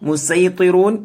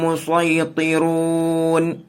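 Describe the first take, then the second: First: The s sound is plain, light and clear. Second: The s sound is emphatic, heavy and dark. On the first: The speaker calls it wrong. "എന്നല്ല" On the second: The speaker calls it right. "സ്വാദ് കൊണ്ട് തന്നെയാണ് ഓതേണ്ടത്"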